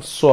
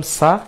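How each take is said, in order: First: "স" with a rounded o-like vowel; full, dark "স"; heavy sad sound. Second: "সা" with an open a; thin, plain "সা"; light seen sound. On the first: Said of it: "সোয়াদের ক্ষেত্রে বলেছিলাম স". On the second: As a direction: say "সা" as a light s, lips unrounded. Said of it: "সিনের ক্ষেত্রে বলেছিলাম সা". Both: Shown as a demonstration.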